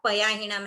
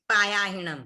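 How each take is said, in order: First: The first vowel is short. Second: The first vowel is long. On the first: The speaker calls it right. "उसके बाद पयाहिणम है" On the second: The speaker calls it wrong. "Not पायाहिणम"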